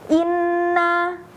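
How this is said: The held n stays audible with the nose closed. The sound is not flowing through the nose. The speaker calls it wrong. "Kalau suaranya masih ada"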